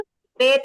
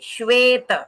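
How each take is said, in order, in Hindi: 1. पहली sh ध्वनि नरम और कमज़ोर है। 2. पहली sh ध्वनि ज़ोर से दबाई गई है। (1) "श्वेत नहीं" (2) "और प्रेशर आना चाहिए श पे"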